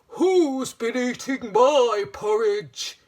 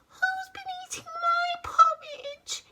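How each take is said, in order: First: It is said in a big, deep voice. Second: It is said in a tiny, high voice. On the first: "he said in a great big voice" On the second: "he cried in his tiny baby voice"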